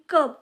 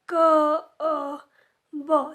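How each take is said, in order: First: The sounds are blended into one word. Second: Each sound is said separately with pauses between. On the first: The speaker calls it right. "Directly कब या पद्धतीने त्यांना सांगायचं आहे" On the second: The speaker calls it wrong. "क अ ब या पद्धतीने त्यांना शिकवायचं नाही आहे"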